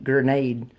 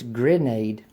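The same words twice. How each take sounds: First: The first syllable is said as 'gur'. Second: The first syllable is said as 'greh'. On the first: The speaker calls it wrong. "they say like G U R N A D E" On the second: The speaker calls it right. "It's grenade. G R E N A D E"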